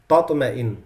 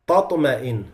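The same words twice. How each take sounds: Both takes have the same delivery.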